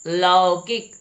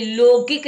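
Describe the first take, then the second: First: लौकिक with a wide "au"; corrected pronunciation. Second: लौकिक with "o", as "lo-kik", high and loud; high, round "o" in लौकिक; mispronounced लौकिक. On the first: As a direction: say लौकिक as "LAA-o-kik". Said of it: "क्या होना चाहिए". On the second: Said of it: "लौकिक नहीं". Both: Shown as a demonstration.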